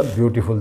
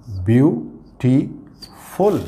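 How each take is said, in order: First: Said in the usual way. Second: beautiful drawn out very slowly, each syllable apart; slow teacher's beautiful, syllables pulled apart. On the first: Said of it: "देखिए". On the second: Shown as a demonstration. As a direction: stretch out beautiful to count its three syllables. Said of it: "तीन syllable का word है".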